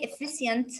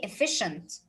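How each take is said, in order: First: The middle consonant is a 'ch' sound. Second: The middle consonant is a 'sh' sound. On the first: The speaker calls it wrong. "I will not say" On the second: The speaker calls it right. "I will say"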